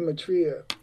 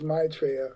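First: The first syllable is not stressed. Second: The first syllable is stressed. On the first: This is the natural American way to say it. "My natural inclination as American is to say Maitreya" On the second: This is the way it is said in England and Europe. "in England, in Europe, the MAI is obviously emphasizes"

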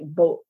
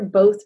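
First: The word ends with a glottal stop. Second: The word ends with a th sound.

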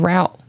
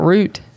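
First: The vowel sounds like the one in out. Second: The vowel sounds like the one in boot. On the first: The speaker calls it right. "It's Route" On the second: The speaker calls it wrong. "It's not Root"

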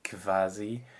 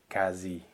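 First: It starts with a K followed by V. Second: It starts with a plain K sound. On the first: The speaker calls it wrong. "It's not quasi" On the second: The speaker calls it right. "It's really quasi, like just a K"

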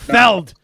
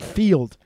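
First: The vowel is a short e sound. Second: The vowel is a long ee sound. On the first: The speaker calls it right. "He said Feld. Just like Feldman" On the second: The speaker calls it wrong. "not Field"

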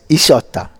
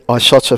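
First: The first vowel sounds like "ee". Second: The first vowel sounds like "eye".

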